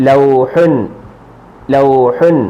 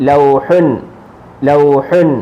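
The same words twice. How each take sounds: The two takes are said the same way.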